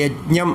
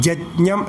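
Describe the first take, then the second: First: The word begins with a 'y' sound. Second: The word begins with a 'j' sound. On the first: "യജ്ഞം എന്നതിൽ" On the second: "ജജ്ഞം എന്നാണ് ശുക്ല യജുർവേദത്തിൽ പറയുക"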